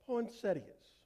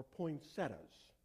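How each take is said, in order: First: "poinsettias" ending in ee-uhz; full-ending pronunciation. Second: "poinsettias" as poin-SET-uhz; short-ending pronunciation. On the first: Preacher trying a flower's name, pronouncing "poinsettias" with the ee-uh ending. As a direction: say "poinsettias" with four syllables, sounding the i. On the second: Preacher offering the other version, "poinsettias" without the ee sound. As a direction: say "poinsettias" with three syllables, dropping the i. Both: Shown as a demonstration. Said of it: "or however you say it".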